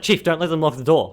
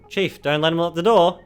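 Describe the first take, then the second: First: It is said in a gritty, serious tone. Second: It is said in a light, whimsical tone.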